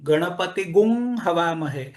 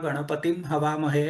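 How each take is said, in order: First: A long, drawn-out gum comes before havamahe. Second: A plain nasal comes before havamahe. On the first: This is the Vajasaneyi way of reciting it. "गुं पूर्ण वाढवून" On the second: This is the Rigveda way of reciting it. "ऋग्वेदामध्ये तो गणानान्त्वा गणपतीं हवामहे असाच म्हटला जाईल"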